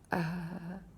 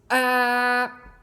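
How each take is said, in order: First: The sound is said softly and weakly. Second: The sound is said loudly and strongly. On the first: "Ele pode ser fraco" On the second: "ele pode ser forte"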